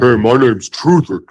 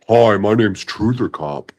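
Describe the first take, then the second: First: It is said in an angry tone. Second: It is said in a calm tone.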